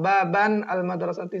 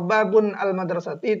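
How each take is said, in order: First: The first word ends in -an, unlinked. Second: The first word ends in -un, unlinked. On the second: "itu salah"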